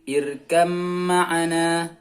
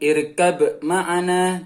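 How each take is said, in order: First: The b merges into m, no b heard. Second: A distinct b is heard before the m. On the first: The speaker calls it right. "langsung huruf ba-nya hilang" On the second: The speaker calls it wrong. "Jadi bukan irkab ma'ana"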